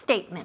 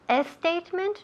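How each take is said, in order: First: The word starts directly with the S sound. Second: An extra E vowel comes before the S. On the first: The speaker calls it right. "empieza con el sonido S de serpiente" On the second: The speaker calls it wrong. "Mucha gente dice statement, poniendo la E ahí, lo que llamo la E fantasma"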